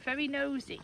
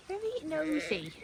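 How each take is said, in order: First: Said in the usual way. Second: Higher, slower sing-song coo. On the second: Real, not acted. Farmer teasing her nosy lamb, higher slow coo.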